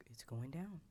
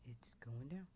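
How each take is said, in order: Both takes have the same delivery.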